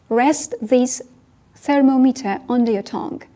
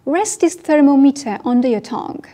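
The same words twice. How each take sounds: First: Phrased in chunks. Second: Slow, loud, clear English model line; slow model sentence. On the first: Teacher repeating the line in chunks for learners. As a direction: pause after "Rest this", then "thermometer" slowly. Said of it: "teacher repeats in chunks". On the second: Teacher modelling for learners, slow and clear. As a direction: say it slowly for the class to repeat. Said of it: "teacher models the line". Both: Shown as a demonstration.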